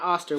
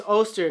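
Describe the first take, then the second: First: "Oster" with an open "ah" first vowel; wrong pronunciation. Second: "Oster" with a long "oh" first vowel; "Oster" begun like "oh", falling at the end; corrected pronunciation. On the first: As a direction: say "Oster" as "AH-ster". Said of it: "We've been saying it wrong". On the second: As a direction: say "Oster" as "OH-ster". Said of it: "not Oster". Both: Shown as a demonstration.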